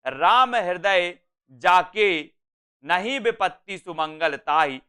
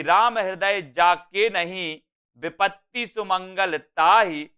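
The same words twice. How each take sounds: First: Slow "राम हृदय जाके", clear break before "नहीं"; pause after जाके. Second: Slow reading, break after "नहीं"; pause after नहीं. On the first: Teacher showing the moved comma to students, pause after "जाके". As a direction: draw out "जाके", stop, then go on from "नहीं". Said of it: "यहां कर दिया गया". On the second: Teacher showing the comma's place in a verse, pause after "नहीं". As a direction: stretch the line and pause right after "नहीं". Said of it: "इस अल्प विराम को यहां कर दिया गया". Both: Shown as a demonstration.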